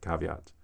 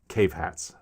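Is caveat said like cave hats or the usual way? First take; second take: usual way; cave hats. First: It is said with the usual pronunciation. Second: It sounds like the two words cave hats. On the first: "the word ca- caveat" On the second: "cave hats for the word ca- caveat"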